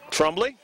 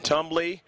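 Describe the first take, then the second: First: The name starts with a TR sound. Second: The name starts with a plain T sound. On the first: The speaker calls it right. "Proper pronunciation on the last name" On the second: The speaker calls it wrong. "If I mentioned Tumbly, should have uh, called it Trumbly"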